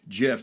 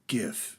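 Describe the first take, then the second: First: It begins with a soft J sound. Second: It begins with a hard G sound. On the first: "or GIF depending on how you pronounce it" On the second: "It's a hard G. It's not a J"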